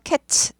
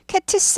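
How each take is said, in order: First: The final t and s blend into one sound. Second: The final t and s are split apart. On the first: The speaker calls it right. "츠 발음 난다 그랬죠" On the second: The speaker calls it wrong. "cats 하지 않고"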